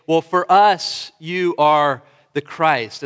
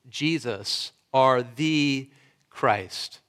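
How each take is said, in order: First: Slow, loud, noncommittal take on the confession; lazy relativist shrug of a confession; wishy-washy mock confession. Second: Low, quiet and weighty on Jesus, are the Christ; solemn, decisive confession of faith; firm emphatic confession. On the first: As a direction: say it like it's just your opinion, drawn out and hedging. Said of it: "as if it's a relative perspective". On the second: Shown as a demonstration. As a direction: lean on are and drop the voice on Christ. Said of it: "firm, foundational, decisive, and emphatic confession".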